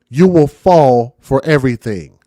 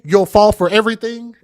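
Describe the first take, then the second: First: It is spoken at a slower, deliberate pace. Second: It is spoken at a normal, quicker pace.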